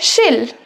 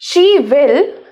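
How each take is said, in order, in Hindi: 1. दोनों शब्द जुड़कर एक छोटा सा अक्षर बन जाते हैं। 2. दोनों शब्द पूरे और अलग-अलग बोले जाते हैं।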